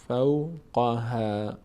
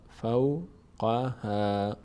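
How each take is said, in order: No difference in how they are said.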